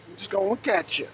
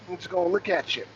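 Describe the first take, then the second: No difference in how they are said.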